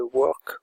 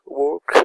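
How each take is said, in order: First: Said in the usual way. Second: "work" in a French speaker's English accent. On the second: Shown as a demonstration. Tutorial host repeating a menu word for viewers, English accent. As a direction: say "work" again, louder, attempting an English accent. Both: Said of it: "avec mon accent anglais".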